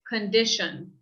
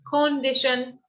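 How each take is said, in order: First: The first vowel is a weak uh sound. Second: The first vowel is a full o sound. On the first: The speaker calls it right. "this first O sound is more like a U or the schwa sound" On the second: The speaker calls it wrong. "We don't want to say condition"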